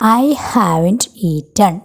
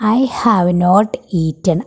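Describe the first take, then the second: First: 'Have not' is shortened into one word. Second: 'Have not' is said as two full words.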